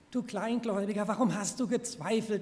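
The tone is warm and encouraging. The listener is being built up. "Du warst so gut, du kannst das"

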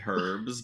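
It is said with a British pronunciation. "how British people say herbs"

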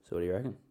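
It is said softly, in a coy way.

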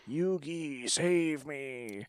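It is said in Kaiba's ghostly voice.

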